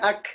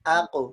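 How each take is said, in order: First: The consonant is made further forward, like k. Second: The consonant is made deep at the back of the throat. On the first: The speaker calls it wrong. "Coba bukan ak, ik, uk. Dan itu jadi kaf" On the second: The speaker calls it right. "Harusnya kan"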